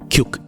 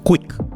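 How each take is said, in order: First: The word begins with a ky sound. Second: The word begins with a kw sound. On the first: The speaker calls it wrong. "It should not be ക്യുക്ക്" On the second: The speaker calls it right. "It should be ക്വിക്ക്"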